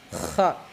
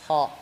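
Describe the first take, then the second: First: The throat is closed and the sound is strained. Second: The throat is open and the sound is smooth. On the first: The speaker calls it wrong. "Itu salah" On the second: The speaker calls it right. "tapi dibuka"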